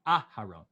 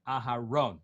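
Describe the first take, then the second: First: Aharon with a punched first A; Aharon, front-stressed as a wrong example; wrong stress at the start. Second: Aharon with the weight on RON; Aharon, end-stressed as the correct example. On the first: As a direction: hit the front of Aharon, throw away the end. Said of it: "not Aharon". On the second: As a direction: land on the last syllable of Aharon. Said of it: "put the emphasis at the end". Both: Shown as a demonstration.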